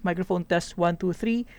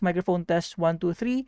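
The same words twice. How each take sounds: First: Background noise is heard without suppression. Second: Background noise is removed by a suppression filter. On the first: "with minus twelve decibels uh, gain in Streamlabs O B S" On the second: "with noise suppression enabled"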